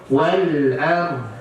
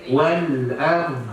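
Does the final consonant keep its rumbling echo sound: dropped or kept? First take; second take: kept; kept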